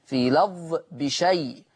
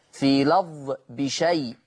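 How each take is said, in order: Both takes have the same delivery.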